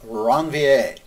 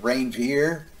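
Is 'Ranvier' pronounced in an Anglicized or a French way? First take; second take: French; Anglicized. First: It is pronounced the French way. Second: It is pronounced to rhyme with reindeer. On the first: The speaker calls it right. "a la Francais" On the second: The speaker calls it wrong. "we sort of bastardize the word into something that rhymes with reindeer"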